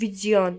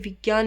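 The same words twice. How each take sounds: First: The cluster is sounded like jy. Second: The cluster is sounded like gy. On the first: The speaker calls it right. "इसको क्या बोलते हैं, जिया" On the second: The speaker calls it wrong. "कभी भी विज्ञान नहीं बोलते"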